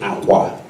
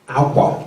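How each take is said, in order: First: Said with the tone pattern meaning bed. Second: Said with the tone pattern meaning clothing. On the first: The word means bed. "that would mean bed" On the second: The word means clothing. "that would mean the clothing that you're wearing"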